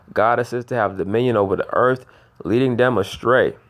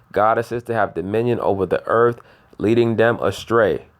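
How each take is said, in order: Both takes have the same delivery.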